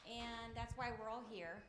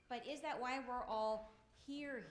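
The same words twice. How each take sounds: First: Said in the usual way. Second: "that" leaned on, slowly questioning; "that" pressed, slower, doubting; stress on that. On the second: Shown as a demonstration. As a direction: hit "that" to question the claim.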